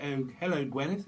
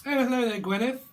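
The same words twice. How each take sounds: First: Said in the usual way. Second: High, loud sing-song hello; hammed-up camp greeting. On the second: Little Britain greeting to Gwyneth, high loud camp hello. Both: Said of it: "Little Britain".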